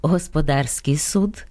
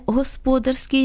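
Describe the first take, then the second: First: «господарський» з наголосом на третьому складі, господАрський; наголос на -дар-. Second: «господарський» з наголосом на другому складі, госпОдарський; наголос на -спо-. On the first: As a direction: stress the DAR in «господарський». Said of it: "Тому правильно казати". («господарський» — наголос на «дар») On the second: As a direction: stress the SPO in «господарський». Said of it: "як часом чуємо". («господарський» — наголос на «спо») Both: Shown as a demonstration.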